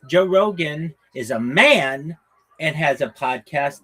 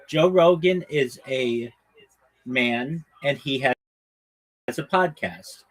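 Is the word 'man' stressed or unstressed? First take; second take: stressed; unstressed. First: The word 'man' is said with strong stress. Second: The word 'man' is said without special stress.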